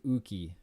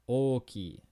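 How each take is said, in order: First: The first vowel sounds like u. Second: The first vowel sounds like o. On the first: The speaker calls it wrong. "I don't want to hear you pronounce this as uki" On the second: The speaker calls it right. "In Japanese, o is always o"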